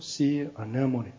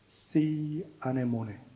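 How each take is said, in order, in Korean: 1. 영어식 억양입니다. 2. 한국식 억양입니다.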